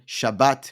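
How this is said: It is said ending with a t sound.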